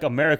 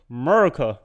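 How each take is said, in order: First: It is said plainly, without emphasis. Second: It is said with strong emphasis.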